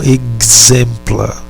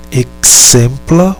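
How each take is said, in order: First: "exempla" slowly, the x as a voiced GZ; pronúncia com GZ. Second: "Exempla" slowly, the x as a voiceless KS; pronúncia com KS. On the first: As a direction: demonstrate "exempla" as eg-ZEM-pla. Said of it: "ou de G Z". ("exempla" bem devagar, com o x como GZ) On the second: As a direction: demonstrate "Exempla" as ek-SEM-pla. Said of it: "O fonema pode ser de K S". ("Exempla" bem devagar, com o x como KS) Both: Shown as a demonstration.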